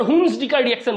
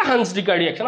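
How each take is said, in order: First: "হুন্স" said with an "oo" vowel; mispronounced as Huns. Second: "হান্স" said with an open "aa" vowel; Hans, not Huns. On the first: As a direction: say "হুন্স" with "oo" in place of "aa". ("হুন্স" উ-কার দিয়ে ভুল উচ্চারণ) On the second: ("হান্স" আ-কার দিয়ে উচ্চারণ) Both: Shown as a demonstration. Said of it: "আবার হুন্স ডিকার reaction বলিস না".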